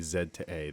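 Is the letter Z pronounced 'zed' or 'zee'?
zed. The letter Z is pronounced 'zed'. This is the expected local form. "they didn't say Z to A"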